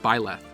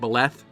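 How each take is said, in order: First: The first syllable is said with emphasis. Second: The first syllable is said without emphasis. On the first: "with the emphasis on it like" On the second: "pronounced a bit closer to"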